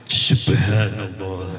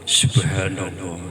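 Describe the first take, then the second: The two takes are said the same way.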